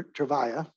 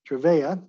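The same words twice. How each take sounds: First: Trevia said softly as truh-VYE-uh; stressed middle of Trevia rhymes with eye. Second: Trevia said as truh-VAY-uh; stressed middle of Trevia rhymes with day. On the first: Lecturer offering the other way to say the drug, Trevia as truh-VYE-uh. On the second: Lecturer weighing two ways to say the drug, Trevia as truh-VAY-uh. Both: Shown as a demonstration. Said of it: "or Trevia".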